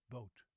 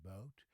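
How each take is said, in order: First: Boat with a flat Dutch O; Dutch pronunciation. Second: Boat with a rounded, gliding O, lower; English pronunciation. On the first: Teacher showing how the Dutch say it, flat boot. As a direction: barely move the mouth on boat. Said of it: "then the Dutch say boat". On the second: Teacher making a point by exaggerating, English boat. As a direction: round the lips through boat. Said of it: "I'm exaggerating". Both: Shown as a demonstration.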